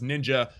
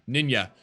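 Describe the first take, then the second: First: The j is said as a J sound. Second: The j is said as a Y sound.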